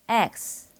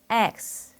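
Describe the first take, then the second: First: It is said English-style, with the mouth wide open. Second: The same.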